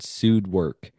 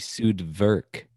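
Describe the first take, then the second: First: The second word starts with a W sound. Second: The second word starts with a V sound. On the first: "I've heard sued work" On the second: "because W's are V's in German"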